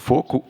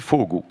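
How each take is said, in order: First: The middle consonant is a strong voiceless k. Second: The middle consonant is a weakened voiced g. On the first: This is the older pronunciation. "une prononciation forte" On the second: This is the pronunciation that now dominates. "une prononciation affaiblie, sonorisée"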